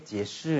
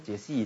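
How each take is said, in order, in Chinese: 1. 第二个音节听起来像'shi'。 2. 第二个音节听起来像'xi'。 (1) "叫解释" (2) "那个不是解析"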